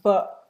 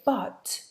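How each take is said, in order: First: The final t is a glottal stop. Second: The final t is clearly released. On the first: "these words are pronounced" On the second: "you haven't got time to say"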